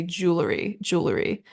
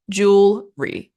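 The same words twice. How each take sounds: First: Jewelry as JOO-luh-ree, extra middle vowel; three-syllable jewelry. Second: Jewelry as JOOL-ree, slow, first beat louder; two-syllable jewelry. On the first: Teacher showing the harder way to say it, three-syllable jewelry. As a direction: slip a small vowel into jewelry. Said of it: "much easier than trying to say". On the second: Teacher showing the British way, two-beat jewelry. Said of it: "literally just two syllables". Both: Shown as a demonstration.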